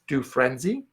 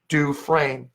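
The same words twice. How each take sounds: First: The S in the middle is sounded. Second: The S in the middle is silent. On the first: The speaker calls it wrong. "Most people say Dufresne, which is phonetical" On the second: The speaker calls it right. "but it's pronounced Dufresne"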